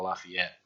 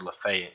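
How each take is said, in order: First: It is said the usual non-local way. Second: It is said the local Mississippi way. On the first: "instead of" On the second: "here in Mississippi they pronounce that word"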